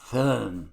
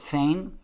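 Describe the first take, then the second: First: The vowel is a rounded German 'ö' sound. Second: The vowel is an 'ay' sound. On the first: The speaker calls it right. "the right way to pronounce it is föhn, like your German" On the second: The speaker calls it wrong. "some people pronounce it fein"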